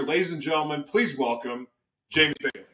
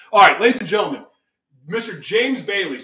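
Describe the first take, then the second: First: Said in the usual way. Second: Loud showman intro to the crowd; big welcome to the audience; announcer call. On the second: Real, not acted. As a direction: boom it out like a game show host. Host announcing guest to audience.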